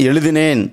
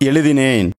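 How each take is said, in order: No difference in how they are said.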